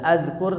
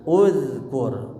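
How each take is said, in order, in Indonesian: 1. Kata ini diawali dengan vokal 'a'. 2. Kata ini diawali dengan vokal 'u'. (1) "tidak azkur" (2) "tapi uzkur"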